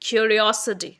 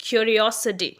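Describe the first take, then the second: Both takes have the same delivery.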